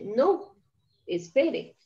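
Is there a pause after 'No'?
yes. There is a pause after no.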